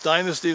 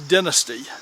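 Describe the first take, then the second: First: It is said the American way. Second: It is said the British way.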